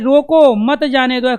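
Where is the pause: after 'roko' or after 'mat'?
after roko. The pause comes after the word 'roko'. Hold the person back. "इसको पकड़ के रखो"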